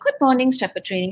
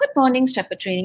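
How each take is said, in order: First: The greeting sounds cheerful and lively. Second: The greeting sounds cheerful and lively.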